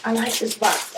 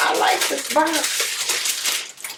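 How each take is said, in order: First: Said in the usual way. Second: Slow breathless whisper of delight; excited whisper. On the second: Real, not acted. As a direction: whisper it like a secret thrill. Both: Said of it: "Okay, I gotta calm down".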